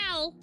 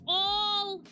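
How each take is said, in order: First: The vowel is the short 'a' of 'pal'. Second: The vowel is the open 'aw' of 'all'. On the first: The speaker calls it wrong. "Not Al" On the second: The speaker calls it right. "like you're saying all"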